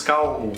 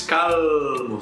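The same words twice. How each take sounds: First: Calmo with the L as U, kawmo. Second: Calmo with a clear L, kamo; calmo, not Brazilian; wrong clear L. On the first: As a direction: soften the L in calmo to U. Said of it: "se diz calmo". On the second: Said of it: "Não se diz". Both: Shown as a demonstration.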